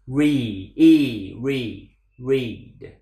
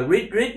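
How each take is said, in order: First: "Read" with a long, falling ee; English long E. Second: "read" cut short on a high Vietnamese tone; short, rising "read" like the syllable "rít"; wrong Vietnamese-style read. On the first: Teacher modelling English for learners, "read" with long vowel. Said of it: "Tiếng Anh âm y dài". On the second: Teacher mocking the error, "read" short and high, Vietnamese-style. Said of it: "Đừng đọc là read ... Đó là tiếng Việt". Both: Shown as a demonstration.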